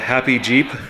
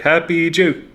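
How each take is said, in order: First: The final P sound is clearly pronounced. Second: The final P sound is left off. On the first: "The machine says uh" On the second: "the pronunciation of it forgets the the P, so it sounds like"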